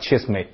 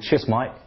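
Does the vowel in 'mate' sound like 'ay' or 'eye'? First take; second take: ay; eye. First: The vowel in 'mate' sounds like 'ay'. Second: The vowel in 'mate' sounds like 'eye'. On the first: "英国人就会说Cheers mate" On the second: "但是在伦敦的Cockney"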